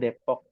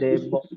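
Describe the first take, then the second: First: The middle consonant is a p sound. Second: The middle consonant is a b sound. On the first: The name is kept as it is at home. "Jadi Depok aja udah Depok ya" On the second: The p is replaced as in Arabic, which has no p. "huruf P itu digantinya dengan B sebenarnya"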